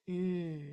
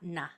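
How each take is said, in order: First: The n sound is held with no vowel after it. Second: The n sound is released into a short vowel. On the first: The speaker calls it right. "doesn't release" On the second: The speaker calls it wrong. "not na"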